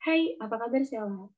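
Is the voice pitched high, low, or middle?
low. The voice is pitched low.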